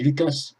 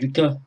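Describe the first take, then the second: First: The name is said with an English pronunciation. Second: The name is said with a French pronunciation. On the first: "en américain et en anglais, on dit Lucas" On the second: "en français, on dit Lucas"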